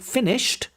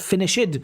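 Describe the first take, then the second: First: The ending is a short t sound. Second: The ending adds an extra 'id' syllable. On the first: The speaker calls it right. "say finished" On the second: The speaker calls it wrong. "not finished"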